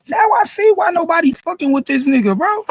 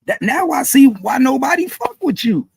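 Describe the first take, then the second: First: Raised, higher ranting voice; angry rant. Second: Said in the usual way. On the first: Real, not acted. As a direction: yell your disbelief at him. Ranting louder at the rapper.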